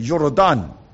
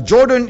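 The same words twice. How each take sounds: First: The name is said the Hebrew way. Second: The name is said the English way. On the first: "That is the Hebrew pronunciation" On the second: "Jordan is the English pronunciation"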